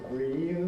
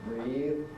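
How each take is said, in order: Both takes have the same delivery.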